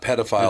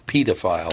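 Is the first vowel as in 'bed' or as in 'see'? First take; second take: bed; see. First: The first syllable sounds as in 'pedestrian'. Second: The first syllable sounds as in 'pediatrician'. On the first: The speaker calls it wrong. "Not pedophile, like in pedestrian" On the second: The speaker calls it right. "as in pediatrician"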